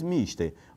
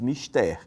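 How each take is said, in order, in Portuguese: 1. A palavra tem acento à inglesa. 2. A palavra tem acento à latina. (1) "Mister é uma palavra do inglês, então você diz mister" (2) "é uma palavra do latim, então você diz mister"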